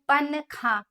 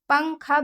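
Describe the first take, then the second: First: The n is pronounced as a clear separate sound. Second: The n is hidden as a nasal hum. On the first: The speaker calls it wrong. "Clear बोलते हैं ... पन-खा सही नहीं है" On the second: The speaker calls it right. "नून की ना की आवाज़ को छुपाते हैं"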